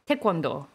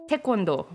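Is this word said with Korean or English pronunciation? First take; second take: Korean; Korean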